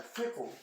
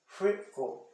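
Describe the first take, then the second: First: Whole word "Frickle" in one go, softer; closed vowel. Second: "Frickle" split as frick, kle, higher pitch; syllables separated. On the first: Teacher showing the closed E sound, "Frickle" as one word. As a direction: model "Frickle" with a short closed vowel, no gap. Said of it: "um Ezinho fechado". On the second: Teacher showing where it separates, "Frickle" in two pieces. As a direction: leave a clear gap inside "Frickle". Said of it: "Separei aqui". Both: Shown as a demonstration.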